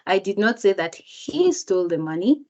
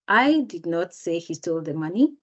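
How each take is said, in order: First: The word he is stressed. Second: The word I is stressed. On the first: Someone else stole the money. "If the speaker emphasizes the word he" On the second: Someone else said it. "if the speaker emphasizes the word I"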